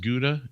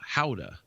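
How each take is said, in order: First: The word is said the usual American way. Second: The word begins like the English word how. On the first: The speaker calls it wrong. "in the U S it's pronounced Gouda" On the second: The speaker calls it right. "to the Dutch it's Gouda"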